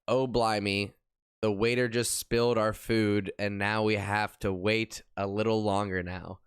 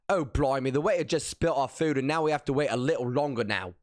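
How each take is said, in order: First: It is said in his ordinary American accent. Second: It is said in a put-on British accent.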